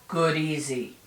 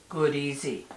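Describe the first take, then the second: No difference in how they are said.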